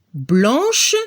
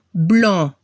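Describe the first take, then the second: First: Blanche, finish with sh; French sh ending. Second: Blanc with a nasal an and silent c; blanc, nasal vowel and no c sound; French nasal ending. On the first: Teacher contrasting blanche with blanc. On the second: Teacher contrasting blanc with blanche. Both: Shown as a demonstration. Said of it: "Si el masculino se termina en C".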